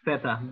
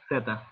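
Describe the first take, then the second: First: The word begins with a th sound. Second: The word begins with an s sound. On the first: This is how it is said in Spain. "if you're in Spain, they are gonna say zeta ... so they would say theta" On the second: This is how it is said in Latin America. "if you go to Latin American countries, you have to say just theta"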